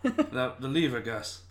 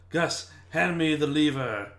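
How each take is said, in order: First: High exasperated repeat of the order, leaning on "lever"; impatient magician. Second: Slow, higher bossy magician command; mock magician. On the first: Pretend. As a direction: snap the order again, squeaking up on "The". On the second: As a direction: order the cat around slowly like a pompous magician. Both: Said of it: "He would just go".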